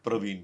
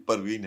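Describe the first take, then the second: First: The first two consonants form a cluster. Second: A vowel separates the first two consonants. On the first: The speaker calls it wrong. "प्रवीण नहीं" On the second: The speaker calls it right. "प्यार से बता बता देता हूँ कि परवीन है"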